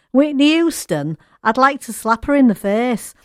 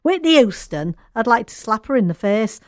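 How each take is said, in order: First: A light put-on American accent, higher and louder; quoting the singer with a hint of an American accent; American accent impression. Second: Lightly mimicking her American twang; American accent impression. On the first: Radio host quoting a singer's remark in a light American accent. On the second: Host repeats the quote doing the singer's American accent. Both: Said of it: "I am doing the accent there".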